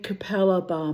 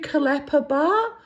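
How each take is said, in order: First: The name is said as Ca-pel-la Bar. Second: The name is said as Ka-la-pa Bar. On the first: The speaker calls it right. "You mean Capella Bar" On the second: The speaker calls it wrong. "my mother couldn't pronounce it either"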